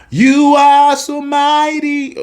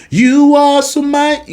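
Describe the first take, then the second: First: High sung line starting with "Ah"; sung, singer's careless version; wrong sung take. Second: High sung "You are so mighty", clean start; refined sung phrase; sung with finesse. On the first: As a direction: sing "Ah, you are so mighty" with a stray "Ah". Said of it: "No, no, no". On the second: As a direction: sing it with polish. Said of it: "add some finesse". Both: Shown as a demonstration.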